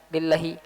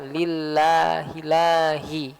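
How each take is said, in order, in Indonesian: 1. Vokal setelah 'l' diucapkan pendek. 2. Vokal setelah 'l' diucapkan panjang. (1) "tanpa ada pemanjangan suara" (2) "harusnya ada alif"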